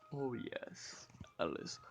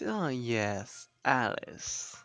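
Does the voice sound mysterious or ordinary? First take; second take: mysterious; ordinary. First: The voice sounds mysterious and put-on. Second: The voice sounds ordinary, not mysterious.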